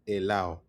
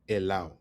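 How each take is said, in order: The two takes are said the same way.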